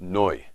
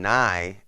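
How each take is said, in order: First: The vowel sounds like 'oh' before the glide. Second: The vowel sounds like 'ah' before the glide. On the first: The speaker calls it right. "But it's noi" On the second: The speaker calls it wrong. "it's not really saying it right"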